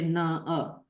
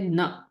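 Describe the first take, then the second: First: An extra vowel follows the syllable. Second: The syllable stops short with no extra vowel. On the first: The speaker calls it wrong. "We will not say na a" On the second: The speaker calls it right. "We will say na and cut it there"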